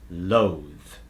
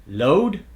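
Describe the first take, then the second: First: "loathe" ending in a long buzzing TH, low; final voiced TH. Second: "Load" ending in a D, pitched up; D substitution. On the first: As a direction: let "loathe" fall onto a held TH. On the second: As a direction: close loathe on a D, "Load". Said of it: "words that use the D substitution". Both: Shown as a demonstration.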